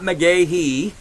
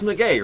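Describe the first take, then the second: First: The surname is said with three syllables. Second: The surname is said with two syllables. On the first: The speaker calls it wrong. "it's not McGahee" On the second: The speaker calls it right. "it's McGay, right?"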